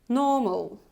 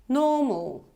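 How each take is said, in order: No difference in how they are said.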